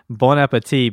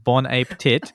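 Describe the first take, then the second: First: It is said with a French pronunciation. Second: It is said as English words, ape and tit.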